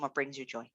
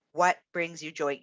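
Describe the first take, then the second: First: "What brings you joy?" asked much softer and lower, "what" leading with a falling end; soft quoted question. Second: Said in the usual way. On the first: Shown as a demonstration. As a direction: ask it gently, almost to yourself. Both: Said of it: "It starts with the question".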